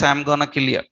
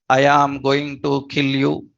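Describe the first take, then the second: First: The words are contracted and run together. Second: Every word is said fully and separately. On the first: This is how native speakers actually talk. "That is their their pronunciation. They says" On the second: This is how textbook English is spoken. "for you who learned school level English"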